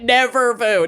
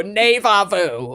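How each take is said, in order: First: Said in the usual way. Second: NEVA said "nay-vah", slow. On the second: Shown as a demonstration. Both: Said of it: "never vu, neva vu".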